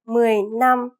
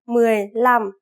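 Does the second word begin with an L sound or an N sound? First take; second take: N sound; L sound. First: The second word begins with an N sound. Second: The second word begins with an L sound. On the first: The speaker calls it wrong. "Instead of mười lăm" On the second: The speaker calls it right. "So L instead of N"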